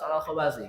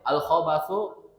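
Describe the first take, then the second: First: The word ends in an i vowel. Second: The word ends in an u vowel. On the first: The speaker calls it right. "harus majlur bacanya" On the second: The speaker calls it wrong. "tidak boleh al khobathu"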